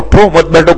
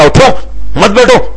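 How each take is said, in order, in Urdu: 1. یہ نرم اور دھیمے لہجے میں کہا گیا ہے۔ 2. یہ غصے اور سخت لہجے میں کہا گیا ہے۔ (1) "نرمی سے کہا" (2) "غصے میں کہا"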